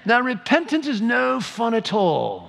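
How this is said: It is spoken in a put-on English accent.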